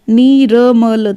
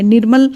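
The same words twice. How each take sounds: First: नीरमल drawn out slowly as nee-ra-ma-la; syllable-by-syllable demo. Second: Said in the usual way. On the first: Shown as a demonstration. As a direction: sound out नीरमल, र before म. (नीरमल को धीरे खींचकर, नी-र-म-ल) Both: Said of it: "म से पहले आता".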